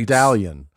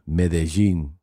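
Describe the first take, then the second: First: The name is said the anglicized American way. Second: The name is said the Colombian Spanish way.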